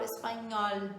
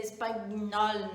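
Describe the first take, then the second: First: Smooth es-pa-nyol for "espanhol". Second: "espanhol" read as es-pag-nol, with a hard g before n; slow, letter-by-letter "espanhol" with the g sounded; literal spelling pronunciation. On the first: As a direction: say "espanhol" with Portuguese nh, not g-n. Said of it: "ele corresponde ao nosso N H". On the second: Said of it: "se a gente fosse ler ao pé da letra". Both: Shown as a demonstration.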